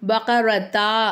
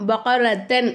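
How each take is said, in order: First: The word ends with a 't' and 'a'. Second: The word ends with a 't' and 'an'. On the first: "பகரத்தா அப்படின்னு நிப்பாட்டக்கூடாது" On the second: "பகரத்தன் அப்படின்னு நிப்பாட்டக்கூடாது"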